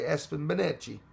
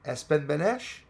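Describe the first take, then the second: First: The surname is said Italian-style, ending in chi. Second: The surname is said plainly, ending in sh. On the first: "if I was Italian, I'd probably say" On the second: "I hope I pronounced that right"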